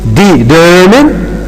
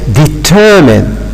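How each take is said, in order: First: The middle consonant sounds like a d. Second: The middle consonant sounds like a t. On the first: The speaker calls it wrong. "Is it possible to say determine?" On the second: The speaker calls it right. "No, we have just to say determine"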